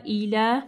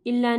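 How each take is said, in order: First: इला with a single ल; correct reading. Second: इला with a doubled ल, stressed; don't double the ल in इला; wrong reading demo. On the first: Teacher showing the right इला. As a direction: say इला with a short ल. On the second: Teacher showing the wrong doubled ल. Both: Shown as a demonstration. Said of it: "इला नहीं पढ़ना".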